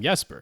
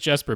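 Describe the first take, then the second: First: The name begins with a Y sound. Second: The name begins with a J sound. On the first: "his father calls him Jesper" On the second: "the character himself pronounces it with a J sound"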